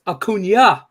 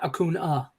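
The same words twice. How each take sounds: First: "Acuna" said with an ny sound, a-KOON-ya; ny glide in the n of "Acuna"; pronounced with ny. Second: "Acuna" said with a plain n, a-KOON-a; no ny glide in "Acuna"; pronounced with plain n. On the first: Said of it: "it's pronounced Acuna". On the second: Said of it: "not Acuna". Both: Shown as a demonstration.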